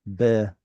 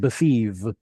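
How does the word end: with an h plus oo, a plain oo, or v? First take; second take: h plus oo; v. First: The word ends with an h then oo. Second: The word ends with a v sound. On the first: This is the original form. "I'll tell you what it was" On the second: This is the modern form. "We went from an oo sound to a v"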